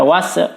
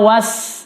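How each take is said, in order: First: The final s is released with a bouncing echo. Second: The final s is held plainly without a bounce. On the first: The speaker calls it wrong. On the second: The speaker calls it right.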